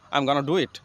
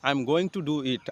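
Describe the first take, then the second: First: 'Going to' is squeezed into 'gonna'. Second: Each word is said fully and slowly. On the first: "গোয়িং টু এর পরিবর্তে ব্যবহার করব গনা" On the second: "এটা একটা slow English"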